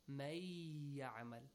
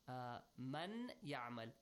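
First: The n sound is merged into the y. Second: The n sound is kept before the y.

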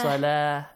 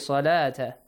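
First: The word ends with a soft h sound. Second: The word ends with a t sound. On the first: The reader stops after this word. "تا will be changed to ها" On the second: The reader continues into the next words. "if you continue"

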